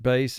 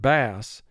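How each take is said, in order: First: The vowel is long, rhyming with 'base'. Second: The vowel is short, rhyming with 'mass'. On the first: It names a low-pitched guitar or its player. "the A is representing its long sound" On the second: It names a fish caught in lakes. "you have a short vowel"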